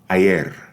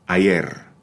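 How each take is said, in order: The two takes are said the same way.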